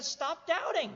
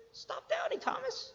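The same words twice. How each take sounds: First: Higher-pitched acted order; emphatic command. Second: Very high, softened command; high, soft voice. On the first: Preacher quotes Jesus correcting Thomas, emphatic command. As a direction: give the order at normal volume, pitched up. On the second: Acted. Preacher repeats Jesus's line to Thomas, high and soft. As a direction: float it up high and light.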